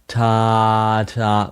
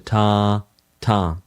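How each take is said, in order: First: The two syllables are joined without a break. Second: The two syllables are separated by a short break. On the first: The notes are connected by a slur. "with no break" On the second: The notes are played separately. "as opposed to"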